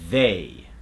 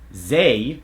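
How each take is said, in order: First: The word begins with a voiced th sound. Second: The word begins with a buzzing z sound. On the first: The speaker calls it right. "We want that tip of the tongue to go between the teeth" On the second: The speaker calls it wrong. "is going to become"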